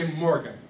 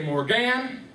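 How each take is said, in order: First: Morgan with MOR stressed and GAN short and falling; natural emphasis. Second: Morgan slowed, with GAN drawn out and rising; misplaced emphasis. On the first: Teacher correcting to the real name, natural emphasis. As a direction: say MOR-gan, first syllable strong. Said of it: "I would say Morgan". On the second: Teacher testing students with a wrong rhythm, misplaced emphasis. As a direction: lean on the wrong end, mor-GAAAN. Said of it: "No, I would say Morgan". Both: Shown as a demonstration.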